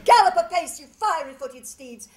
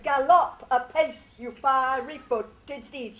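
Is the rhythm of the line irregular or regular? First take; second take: irregular; regular. First: The stresses break the regular alternating beat. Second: The stresses follow a regular alternating beat. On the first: The speaker calls it right. "this irregularity" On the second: The speaker calls it wrong. "she doesn't say"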